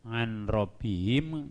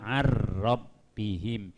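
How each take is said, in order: First: A clear n sound comes before the r. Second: The n merges into a doubled r sound. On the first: The speaker calls it wrong. "nunnya hilang masuk ke ro" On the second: The speaker calls it right. "Jadi jadi bahasanya ar"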